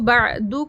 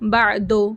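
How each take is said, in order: First: The final vowel is a pure 'oo' sound. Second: The final vowel is an 'oh' sound. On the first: The speaker calls it right. "पेश को" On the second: The speaker calls it wrong. "लो दो की तरह"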